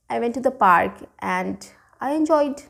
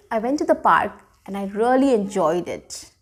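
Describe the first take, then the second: First: Said in the usual way. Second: Bright, smiling retelling of a fun day; cheerful, smiling delivery; smiling, happy. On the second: Shown as a demonstration. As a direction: sound like you really enjoyed it. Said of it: "See, I have a smile, my eyes are shining".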